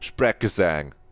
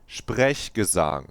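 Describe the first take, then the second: First: It is said with an English pronunciation. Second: It is said with a German pronunciation. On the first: The speaker calls it wrong. "not Sprechgesang" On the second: The speaker calls it right. "That's how you say it"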